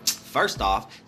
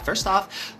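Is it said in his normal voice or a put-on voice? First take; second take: put-on voice; normal voice. First: It is said in a put-on slang voice. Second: It is said in his normal voice.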